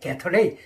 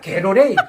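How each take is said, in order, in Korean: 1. 중간 자음은 분명한 t 소리입니다. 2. 중간 자음은 부드러운 r 같은 탄설음입니다. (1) "게터레이라고 제가 발음했어요" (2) "게토레이도 아니고 게터레이도 아니고 게로레이예요"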